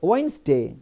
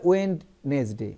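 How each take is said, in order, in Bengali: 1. মাঝখানের d ধ্বনিটি নীরব থাকে। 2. মাঝখানের d ধ্বনিটি স্পষ্টভাবে উচ্চারিত হয়। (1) "ডি উচ্চারণ করেন না" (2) "অনেকেই ভুল উচ্চারণ করে, বলে ওয়েডনেসডে, একদম এটা একদম পুরো বলে"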